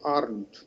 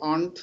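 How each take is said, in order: First: It is said in an American accent. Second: It is said in a British accent. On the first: "American ইংলিশে" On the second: "British ইংলিশে"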